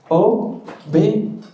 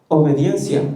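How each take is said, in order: First: The word is said more slowly. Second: The word is said at normal speed.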